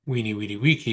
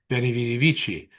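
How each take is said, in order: First: The words begin with a w sound. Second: The words begin with a v sound.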